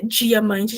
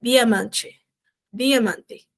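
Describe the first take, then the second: First: "diamante" with a Brazilian "dji" for the d; the non-Spanish "diamante", d softened into "dji"; Portuguese palatal d. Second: "diamante" with a clean, hard "di", no "dji"; careful "diamante" with an unsoftened d; pure Spanish d. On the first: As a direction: start "diamante" like English "jee". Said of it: "em espanhol, não fala de diamante". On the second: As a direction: say "diamante" the Spanish way, d straight off the tongue. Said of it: "em espanhol ele é completamente puro". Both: Shown as a demonstration.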